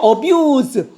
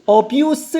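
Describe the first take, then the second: First: The word ends with a z sound. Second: The word ends with an s sound. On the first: It is the verb, to abuse. "어뷰즈가 학대하다" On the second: It is the noun, abuse. "어뷰스라고 하면 학대"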